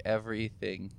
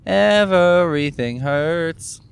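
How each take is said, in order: First: Said in the usual way. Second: Slow, louder, higher whine on "Everything hurts"; drawn-out complaint. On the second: Real, not acted. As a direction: stretch out "Everything" in aching frustration. Groaning about constant pain.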